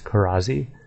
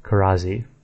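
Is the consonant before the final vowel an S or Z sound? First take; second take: Z; Z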